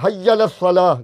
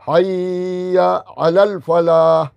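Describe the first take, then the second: First: The middle word's vowel is dropped in haste. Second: The middle word's vowel is fully pronounced. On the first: The speaker calls it wrong. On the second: The speaker calls it right.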